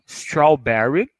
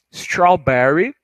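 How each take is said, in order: First: "strawberry" stretched out slowly, each syllable clear; slow strawberry again. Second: "strawberry" stretched out slowly, each syllable clear. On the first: ("strawberry" bem devagar, repetido) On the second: ("strawberry" bem devagar, sílaba por sílaba) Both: Shown as a demonstration. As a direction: draw "strawberry" out slowly for learners.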